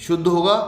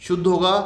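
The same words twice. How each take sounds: Both takes have the same delivery.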